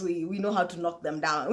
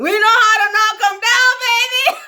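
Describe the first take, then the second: First: Said in the usual way. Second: Belted high and loud, sung out; sung, loud singsong brag about drinking; sung boast. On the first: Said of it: "far sing". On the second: Pretend. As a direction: sing it like a triumphant chorus. Sung brag after spoken line.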